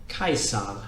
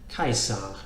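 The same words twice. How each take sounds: No difference in how they are said.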